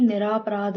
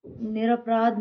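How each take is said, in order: First: Said in the usual way. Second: निरपराध with short र; short middle vowel. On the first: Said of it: "होता है". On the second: Shown as a demonstration. Teacher showing students an error, short middle vowel. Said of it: "नहीं".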